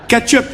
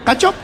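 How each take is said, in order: First: Said in the usual way. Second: "Ketchup" as "katchop" in a mock Chinese accent; short, questioning "katchop", imitating a Chinese accent. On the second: Chinese restaurant owner queries the order, mock Chinese accent. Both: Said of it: "Ging ik naar de Chinees".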